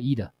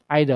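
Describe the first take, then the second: First: It is said in an American accent. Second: It is said in an English accent. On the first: "American accent" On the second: "in this English accent"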